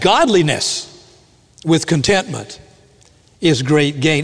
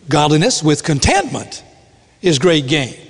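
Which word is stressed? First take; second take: Godliness; contentment. First: The stress is on godliness. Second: The stress is on contentment.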